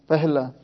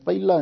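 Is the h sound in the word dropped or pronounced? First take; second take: pronounced; dropped. First: The h sound in the middle is pronounced. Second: The h sound in the middle is dropped. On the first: The speaker calls it right. "ਇਹ ਪਹਿਲਾ ਹਾਹਾ ਵਿੱਚ ਉਚਾਰਨ ਕਰਨਾ" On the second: The speaker calls it wrong. "ਪਹਿਲਾ ਨਹੀਂ"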